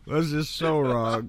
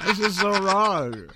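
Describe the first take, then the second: First: Said in the usual way. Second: Higher, laughing through it; can't stop laughing. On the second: Real, not acted.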